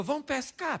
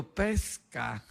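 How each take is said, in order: First: Higher, unforced invitation; voicing Jesus. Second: Low, incredulous echo; voicing Pedro. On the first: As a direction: pitch it up as a playful command. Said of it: "Jesus falou". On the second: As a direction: drop the pitch in mock disbelief. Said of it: "Pedro falou".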